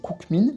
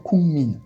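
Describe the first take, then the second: First: A hard k sound comes before the m. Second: A nasal ng sound comes before the m. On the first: The speaker calls it wrong. "on va pas prononcer koukmin" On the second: The speaker calls it right. "mais bien kungmin"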